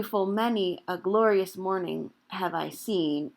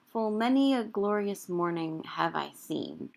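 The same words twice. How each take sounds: First: "many a" said as three full syllables; extra syllable kept. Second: "many a" slurred into a single syllable; elided many a. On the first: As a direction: give "many a" every syllable, not elided. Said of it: "You could do". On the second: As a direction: say "Full many a" with many a run together as one beat. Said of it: "I'm turning the second syllable of many". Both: Shown as a demonstration.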